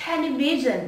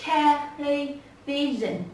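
First: Said in the usual way. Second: "television" very slowly, syllable by syllable; từng âm tiết. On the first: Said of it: "Có bốn". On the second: Shown as a demonstration. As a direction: break "television" into separate slow syllables. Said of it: "Có bốn. Đầu tiên". (đọc "television" thật chậm, tách từng âm)

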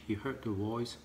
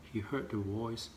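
Both takes have the same delivery.

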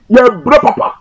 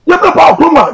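First: Said in the usual way. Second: "brɛ" hit much higher and louder, pitch leaping up; emphatic repeat. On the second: Real, not acted. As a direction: drive "brɛ" home high and strong as you repeat it. Repeats phrase, rising emphasis.

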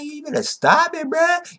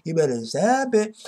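First: Mock warning. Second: Said in the usual way. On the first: [name] warning Juha.

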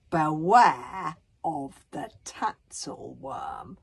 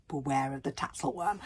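First: Very slow, loud warning; ominous warning. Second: Said in the usual way. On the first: Acted. Bodkin reads out the map's warning, ominous. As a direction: draw out BEWARE with dread. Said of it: "Bodkin read out the signal".

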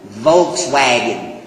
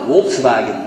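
First: "Volkswagen" with V first, then W; English pronunciation. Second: "Volkswagen" with V and W sounds swapped; German pronunciation. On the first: Preacher showing how we pronounce it, English pronunciation. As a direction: say "Volkswagen" as Volks-wagen, slowly. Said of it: "We pronounce it Volkswagen". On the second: Preacher showing what Germans call it, German pronunciation. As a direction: say "Volkswagen" as Wolks-vagen. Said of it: "That's what they call it". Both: Shown as a demonstration.

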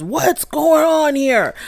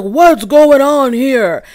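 First: Slow, high mock thunder; slow hammed-up authoritative question. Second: Slow booming teacher voice; like a teacher quieting a rowdy class; slow, loud, drawn out authoritative question; teacher calming class. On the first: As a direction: boom it out like a stern teacher. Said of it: "he had all that thunder in his voice". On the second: Retold or imitated. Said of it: "teacher trying to calm down the class voice".

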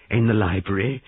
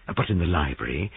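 First: "the library" pushed higher and a bit louder; emphatic repeat. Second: Said in the usual way. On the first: A narrator's reading. Narrator repeating the place for weight, emphatic. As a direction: lean on "in the library" as the key realization.

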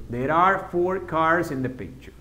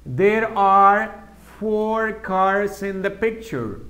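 First: Said in the usual way. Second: Very slow, careful model answer. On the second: Shown as a demonstration. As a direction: spell it out slowly for learners. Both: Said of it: "en inglés?".

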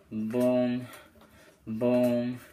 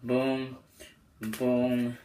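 The two takes are said the same way.

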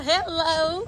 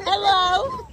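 First: Bright rising hello; excited hello. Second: High hello through laughter; laughing hello. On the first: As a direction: sing out the greeting. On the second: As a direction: laugh while calling hello. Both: Real, not acted. Greeting friend at door.

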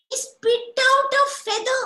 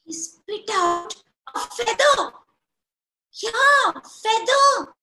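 First: Sung, high and slow; sung, sing-song. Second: Loud, high-pitched storyteller announcement; excited telling. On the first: Storyteller to children, sung slow and high. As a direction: chant it like a nursery tune. Storyteller sings the repeated line. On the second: Storyteller to children, loud and high with excitement. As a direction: make the children gasp at it. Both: A narrator's reading.

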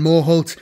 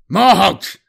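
First: Said in the usual way. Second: Morholt! shouted higher and louder, snarled. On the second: Acted. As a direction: snap out Morholt! as an angry call. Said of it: "Apollos snarled".

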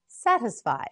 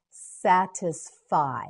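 First: Said in the usual way. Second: "Satisfy" slowly as sat, is, fy; syllable by syllable. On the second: Shown as a demonstration. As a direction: separate each syllable of "Satisfy". Teacher models word by syllables.

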